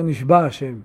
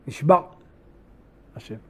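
First: The two words run together without a break. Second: A short break separates the two words. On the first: It sounds as if God was taken captive. The speaker calls it wrong. "מה קרה לקדוש ברוך הוא? נשבע. נפל בשבי" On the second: It means God swore an oath. The speaker calls it right. "צריך להפסיק בין נשבע להשם"

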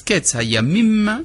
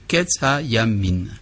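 First: The last word ends with an m sound. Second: The last word ends with an n sound. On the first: This is the standard form of the phrase. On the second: This form shows Aramaic influence.

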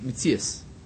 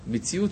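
First: The word ends with an 's' sound. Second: The word ends with a 't' sound.

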